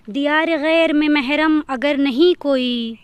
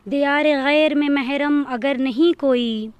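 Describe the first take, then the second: No difference in how they are said.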